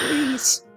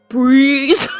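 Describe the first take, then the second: First: It is said in a put-on elderly voice. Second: It is said in an ordinary voice.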